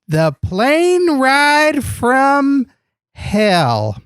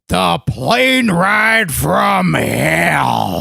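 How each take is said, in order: First: It is said plainly, without much energy. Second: It is said in a loud, intense announcer voice.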